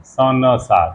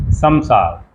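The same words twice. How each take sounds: First: स न सार split into three parts with a plain n sound; wrong pronunciation. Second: संसार said as one word, the nasal said as m; correct pronunciation. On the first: Teacher shows the common mistake with संसार, spelled out wrongly. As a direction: mimic the careless way people say संसार. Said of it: "स न सार कह देते हैं". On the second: Teacher gives the correct संसार after the wrong one. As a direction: say संसार the right way, with an m sound in the middle. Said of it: "म, संस्कृत, म". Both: Shown as a demonstration.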